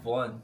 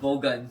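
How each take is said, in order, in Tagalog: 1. Isang pantig ang bigkas nito, tulad ng 'Von'. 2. Dalawang pantig ang bigkas nito, tulad ng 'Bogan'. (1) "Yun pala" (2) "Unang pronunciation ko doon"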